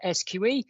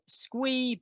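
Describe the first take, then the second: First: The acronym is spelled out letter by letter. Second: The acronym is said as a single word. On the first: This is the serious, official way to say it. "We're a serious regulator, so we pronounce it S Q E" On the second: This is the more playful way to say it. "Some people pronounce it S Q E, but we're not that fun"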